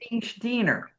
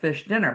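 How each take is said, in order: First: Fish has an ee vowel, Spanish-accented. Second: Fish has a short i vowel.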